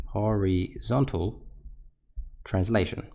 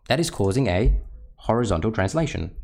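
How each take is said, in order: First: Drawn out very slowly, word by word; slow emphatic repeat. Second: Said in the usual way. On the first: Shown as a demonstration. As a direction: spell the term out slowly for students. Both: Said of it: "teacher repeats key term".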